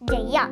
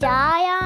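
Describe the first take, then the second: First: Both syllables are short and quick. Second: The first syllable has a long vowel. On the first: The speaker calls it right. "జాని ఒక్క సెకండ్లో పలకాలి" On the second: The speaker calls it wrong. "జాకి దీర్ఘం లేదుగా, తప్పు"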